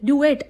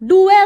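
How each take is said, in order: First: The word ends with a clear t sound. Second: The word ends on a vowel, without t. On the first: The speaker calls it wrong. "त्याला डुएट म्हणत होती" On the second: The speaker calls it right. "डुए असतं ते"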